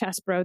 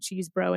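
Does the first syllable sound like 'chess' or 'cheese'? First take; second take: chess; cheese. First: The first syllable sounds like 'chess'. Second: The first syllable sounds like 'cheese'. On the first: This is how others say the name. The speaker calls it wrong. "They're saying it's Chesbro. That's a dumb way to pronounce that" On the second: This is the speaker's own chosen way. The speaker calls it right. "I'm going to keep saying Cheesebro until I'm told otherwise"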